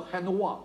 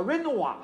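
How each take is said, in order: First: "Renoir" said the French way, the R breathed like an H, as "Henua". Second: "Renoir" said the English way, with a rolled-back English R and the stress at the end. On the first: Lecturer showing students how the French really say "Renoir", R as H. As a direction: start "Renoir" with a throaty H sound, then "nua". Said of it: "他都读成H". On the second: Lecturer showing students the wrong English reading of "Renoir". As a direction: give "Renoir" the fluent English reading with an English R at the start. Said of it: "其实根本错误". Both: Shown as a demonstration.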